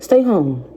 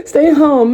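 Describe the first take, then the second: First: Crying through the words; tearful. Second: Higher and louder, laughing while teary; laughing through tears. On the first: Advising viewers not to call him, tearful. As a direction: say it while holding back tears. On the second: Telling viewers again to stay home, laughing through tears. Repeats the advice laughing and crying. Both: Real, not acted.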